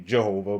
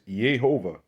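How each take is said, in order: First: The name begins with a J sound. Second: The name begins with a Y sound. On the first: The speaker calls it wrong. "people would say Jehovah, but Jehovah wasn't invented" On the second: The speaker calls it right. "or up here it's Yehovah"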